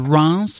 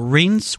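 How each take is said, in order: First: Reims is said with a French pronunciation. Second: Reims is said with an American pronunciation.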